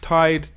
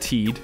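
First: The vowel sounds like eye. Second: The vowel sounds like ee.

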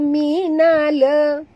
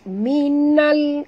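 First: The word ends with an added vowel after l. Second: The word ends cleanly on the l sound. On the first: The speaker calls it wrong. "bukannya minala. Itu salah" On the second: The speaker calls it right.

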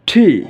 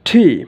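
No difference in how they are said.

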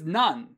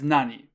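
First: The word ends with an n sound. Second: The word ends with a vowel sound. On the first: The word is used in the middle of a sentence. "it's usually pronounced as nan" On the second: The word stands on its own. "the word nani by itself is read as nani"

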